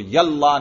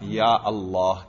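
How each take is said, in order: First: The words run together with no glottal stop. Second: A glottal stop separates the two words. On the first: The speaker calls it wrong. "यल्ला नहीं कहते" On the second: The speaker calls it right. "या अल्लाह कहते हैं, वही हमजा कतई बन गया"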